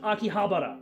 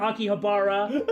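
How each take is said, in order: First: It is said with a Japanese pronunciation. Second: It is said with an English pronunciation. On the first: The speaker calls it right. "what he said was Akihabara" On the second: The speaker calls it wrong.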